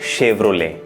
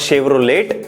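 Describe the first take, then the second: First: The final T is silent. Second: The final T is pronounced. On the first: The speaker calls it right. "The T, as you can see, it's subtle, it's silent" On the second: The speaker calls it wrong. "so not Chevrolet"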